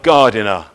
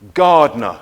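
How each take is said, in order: First: Every syllable of the word is pronounced. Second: One syllable of the word is dropped. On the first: The speaker calls it wrong. "not gardener" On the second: The speaker calls it right. "We say gardener"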